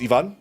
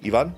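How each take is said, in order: First: The name is said with Spanish sounds. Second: The same.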